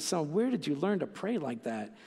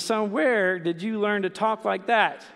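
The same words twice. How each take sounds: First: Soft, amazed question from a dad, WHERE lightly stressed; a father touched by his son's prayer. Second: Slow, stern question from a dad, with WHERE hit hard; a father demanding where his son learned that word. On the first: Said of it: "He says". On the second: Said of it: "the dad spins around and says". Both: Retold or imitated.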